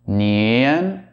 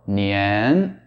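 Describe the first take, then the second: First: The vowel shifts at the very end. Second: The vowel shifts at the very beginning. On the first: "change the vowel sound at the very end" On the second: "or the very beginning"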